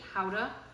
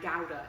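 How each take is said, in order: First: It is said with a Dutch-style pronunciation. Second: It is said with a British pronunciation. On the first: It follows the cheese's home country. "I'm pronouncing it howdah because Lisa comes, her family come from Holland" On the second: It is how people in Britain say it. "and Gouda in the U K"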